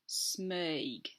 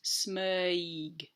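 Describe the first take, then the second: First: The word is said at normal speed. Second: The word is said slowly and drawn out. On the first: "So it's actually said Smeig" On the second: "if you slow that right down"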